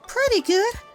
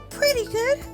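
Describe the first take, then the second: First: It is said in the speaker's natural voice. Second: It is said in a slightly altered character voice. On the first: The speaker calls it wrong. "I gotta do her voice again" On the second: The speaker calls it right. "just doing my voice, but a little like, ah"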